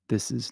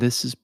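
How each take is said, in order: First: The voice sounds natural and balanced. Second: The voice sounds bright and crisp. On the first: "This is natural" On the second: "and this is bright"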